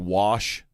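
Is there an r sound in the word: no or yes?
no. The word is said without an r sound.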